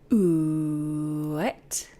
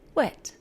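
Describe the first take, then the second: First: It starts with a drawn-out oo vowel. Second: It starts with a quick normal w.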